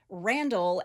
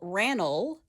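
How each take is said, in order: First: The d sound in the middle is pronounced. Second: The d sound in the middle is dropped.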